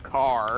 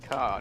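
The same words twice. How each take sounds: First: The word is said with an R sound. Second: The word is said without an R sound. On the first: This is the pronunciation with the written R. "not car" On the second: This is how British speakers say it. "we say car"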